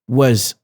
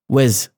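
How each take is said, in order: First: The vowel is reduced and the word is unstressed. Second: The same.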